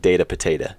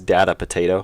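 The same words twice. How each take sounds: First: Data is said to rhyme with potato. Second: Data is said not rhyming with potato. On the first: The speaker calls it right. "it sounds it like kind of rhymes" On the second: The speaker calls it wrong. "if you pronounce it wrong"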